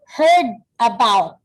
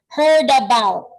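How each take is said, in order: First: The two words are said separately with a break. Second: The final d links straight into the next vowel. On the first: The speaker calls it wrong. "in ordinary reading, you only read this as heard about. Okay, but that is wrong" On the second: The speaker calls it right. "The correct way on how to pronounce that is heard about. So D and A, you pronounce that as da"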